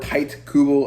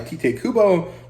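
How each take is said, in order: First: The final vowel of Tite is silent. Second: The final vowel of Tite is pronounced. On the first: The speaker calls it wrong. "I've heard some people say" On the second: The speaker calls it right. "I think I'm going to stick to Tite Kubo because that sounds more correct to me"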